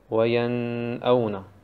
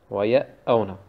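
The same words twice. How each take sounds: First: The n is held for a long time. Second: The n is dropped and the glottal stop doubled. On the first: "Auf dem Nun lange zu stehen, ist auch falsch" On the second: "Also den Nun wegzumachen und auf dem Hamza ein Shadda zu machen, ist falsch"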